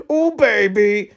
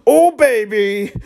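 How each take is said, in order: First: Said in the usual way. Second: Mock sultry. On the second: Player hamming up a flirty line, mock sultry. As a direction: purr it out in a silly put-on voice.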